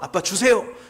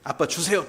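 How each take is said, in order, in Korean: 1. 엄하고 다급한 목소리로 말하고 있어요. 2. 더 엄하고 더 무서운 목소리로 말하고 있어요. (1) "엄한 목소리로 윤기한테 말했어요. 다급하게" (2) "더 엄격하게, 더 무섭게"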